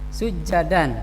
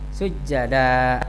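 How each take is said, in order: First: The word ends with an n sound. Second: The word ends in a long vowel.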